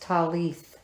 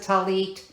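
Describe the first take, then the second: First: The word ends with a th sound. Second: The word ends with a t sound. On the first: This follows how it is written down. "they have it written down as talith" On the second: This is how the speaker's community says it now. "we pronounce it talit"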